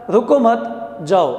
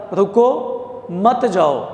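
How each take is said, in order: First: رکو مت run together, a clear break, then جاؤ alone; pause after مت. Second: Slow, with a clear break after رکو, then مت جاؤ together; pause after رکو. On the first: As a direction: hold off جاؤ until after a pause following مت. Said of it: "اس سے پتہ چلتا ہے رکو مت". (رکو مت ایک ساتھ، پھر ٹھہر کر جاؤ) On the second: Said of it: "اس کا مطلب یہ ہے کہ رکنا ہے". (رکو کے بعد واضح ٹھہراؤ، پھر مت جاؤ ایک ساتھ) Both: Shown as a demonstration.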